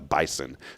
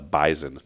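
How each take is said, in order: First: The middle consonant is a hissing s sound. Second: The middle consonant is a buzzing z sound. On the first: This is not how the locals say it. "not the Bison" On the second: This is how the locals say it. "We called it the Bison, ... everything with an S comes out as Z's now"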